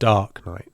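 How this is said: The stress falls on the first word. The speaker calls it wrong. "not dark"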